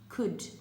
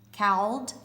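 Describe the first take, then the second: First: The word is said with a short vowel, no L. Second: The word is said with an 'ow' vowel and L. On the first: The speaker calls it right. "a sneaky letter in there that you don't even hear" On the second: The speaker calls it wrong. "it would sound like it says cowled"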